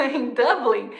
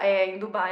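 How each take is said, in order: First: Laughing as she fixes the city name; laughing correction. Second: Said in the usual way. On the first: Real, not acted.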